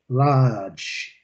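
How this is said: It is said with a British accent. "olha a pronúncia britânica"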